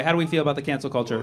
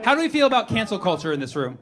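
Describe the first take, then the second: First: Faster repeat. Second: Said in the usual way. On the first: Shown as a demonstration. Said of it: "repeats question to crowd". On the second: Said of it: "first take of question".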